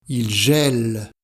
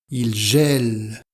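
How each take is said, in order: No difference in how they are said.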